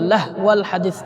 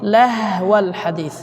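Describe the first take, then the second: First: The h sound is cut off abruptly. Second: The h sound flows out with audible breath. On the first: The speaker calls it wrong. "হার আওয়াজটা বন্ধ হয়ে গেছে" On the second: The speaker calls it right. "হা এটা রখওয়ার হরফ"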